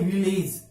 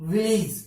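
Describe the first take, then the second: First: विलेज with an "ej" second syllable; common mispronunciation. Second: विलेज with a short I in second syllable; corrected pronunciation. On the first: Teacher shows the general mistake, विलेज ending in "ej". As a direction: say विलेज with a full E before the J. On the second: Teacher corrects the general habit, विलेज ending in "ij". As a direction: say विलेज as "vil-ij". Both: Shown as a demonstration. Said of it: "that's not correct".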